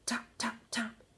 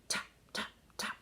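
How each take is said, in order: Both takes have the same delivery.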